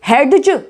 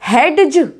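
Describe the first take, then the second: The two takes are said the same way.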